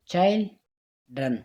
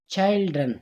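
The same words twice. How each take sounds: First: Put-on "children" broken in two, chil, pause, dren; split into syllables. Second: Said in the usual way. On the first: Shown as a demonstration. Teacher showing where the voice breaks in "children", syllable by syllable. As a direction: say "children" slowly with a clear gap before "dren". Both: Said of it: "सिर्फ दरमियान में आवाज़ टूटता है".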